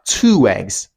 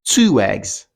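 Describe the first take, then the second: First: A w sound links the two words together. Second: The same.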